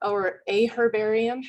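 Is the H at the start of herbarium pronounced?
yes. The H is pronounced, British style.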